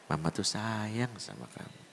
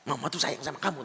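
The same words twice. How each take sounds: First: The phrase is said softly and gently. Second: The phrase is shouted loudly. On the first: The child feels loved. The speaker calls it right. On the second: The child hears no love in it. The speaker calls it wrong.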